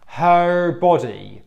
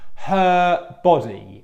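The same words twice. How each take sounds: First: The vowel in 'her' glides toward the next sound. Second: The vowel in 'her' stays steady throughout. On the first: The speaker calls it wrong. "the wrong pronunciation is this. ... The lips are changing, the tongue's changing" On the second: The speaker calls it right. "The correct is this"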